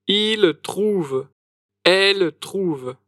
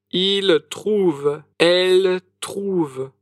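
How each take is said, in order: Both takes have the same delivery.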